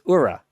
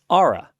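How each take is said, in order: First: The name does not sound like aura. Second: The name sounds like the word aura. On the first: The speaker calls it wrong. "It's not" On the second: The speaker calls it right. "It's Aura, like A U R A"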